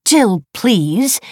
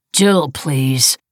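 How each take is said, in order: First: High, loud, indignant echo; offended. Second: Said in the usual way. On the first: A narrator's reading. Wife echoing husband's brush-off, offended. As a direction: throw it back as an affronted question. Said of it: "she said, offended".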